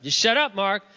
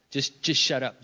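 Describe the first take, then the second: First: Sharper, louder order to himself; higher, emphatic self-rebuke; self-scolding. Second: Said in the usual way. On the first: Retold or imitated. Husband reining in his own temper, self-scolding.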